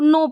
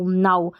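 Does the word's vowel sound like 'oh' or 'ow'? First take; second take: oh; ow. First: The vowel sounds like 'oh' in 'go'. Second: The vowel sounds like 'ow' in 'cow'. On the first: The speaker calls it wrong. "तो हम ऐसे पढ़ देंगे, ये जो नाउ है इसको नो पढ़ देंगे" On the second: The speaker calls it right. "एन का उच्चारण न और आउ, नाउ"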